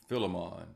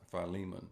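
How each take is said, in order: First: "Philemon" said as FILL-uh-mon; "Philemon" with short i, stressed at the front; alternative pronunciation. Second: "Philemon" said as fy-LEE-mun; "Philemon" with long i, stress on the middle; preferred pronunciation. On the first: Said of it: "Some say Philemon". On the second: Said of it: "but I, it's pronounced Philemon". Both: Shown as a demonstration.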